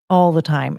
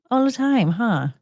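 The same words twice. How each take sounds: First: Said in the usual way. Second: Higher, sing-song question to the dog; pet voice. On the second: Real, not acted. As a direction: tease the dog lovingly. Asking the dog playfully.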